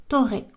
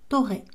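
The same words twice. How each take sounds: Both takes have the same delivery.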